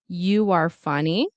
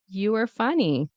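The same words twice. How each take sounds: First: A W sound links 'you' and 'are'. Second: 'You are' is reduced and run together. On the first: "with a W" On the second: "in natural reduction"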